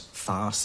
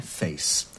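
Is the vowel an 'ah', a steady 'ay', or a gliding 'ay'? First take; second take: ah; gliding ay. First: The vowel is an open 'ah' sound. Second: The vowel glides from one sound to another. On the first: "it was farce" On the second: "gave way to a diphthong A, face"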